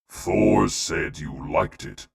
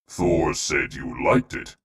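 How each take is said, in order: First: It is read in an ordinary, unraised voice. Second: It is read in a raised, put-on voice.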